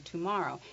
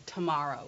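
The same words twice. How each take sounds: First: "tomorrow" as too-MORROW; over-careful full vowel. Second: "tomorrow" as tuh-MORROW; reduced first syllable. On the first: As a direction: give "tomorrow" a full oo at the start. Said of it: "We don't say today, tomorrow". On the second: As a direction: weaken the start of "tomorrow" to tuh. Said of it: "we say ta". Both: Shown as a demonstration.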